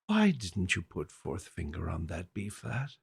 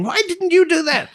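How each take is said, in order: First: Softer, lower, icily calm question. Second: Much higher, louder mock-shouted question; mock yell. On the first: Retold or imitated. Teacher cornering a pupil over fingering, soft and calm. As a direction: ask the unanswerable question with quiet calm. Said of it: "she had the most calm voice". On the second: Piano teacher yelling at a young pupil, loud mock shout.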